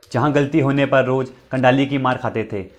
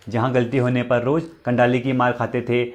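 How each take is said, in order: Both takes have the same delivery.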